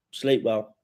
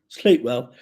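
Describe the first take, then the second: First: Said in the usual way. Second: Put-on "Sleep well" intoned louder like a solemn old wizard; a hint of a wizard's blessing on "Sleep well"; lightly hammed-up wizard farewell, louder; mock Gandalf. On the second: Shown as a demonstration. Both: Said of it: "why am I talking like fucking Gandalf".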